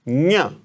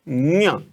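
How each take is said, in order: First: It begins with a nasal ny sound. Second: It begins with a nasal ny sound.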